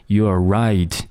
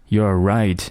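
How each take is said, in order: No difference in how they are said.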